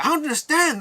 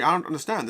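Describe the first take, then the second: First: High-pitched mock bewilderment; bewildered crowd member. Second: Said in the usual way. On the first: Someone in the crowd at the evil contest, high mock bewilderment. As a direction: cry it out in hammed-up confusion. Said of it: "someone else in the crowd's like". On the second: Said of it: "And Dwayne's like".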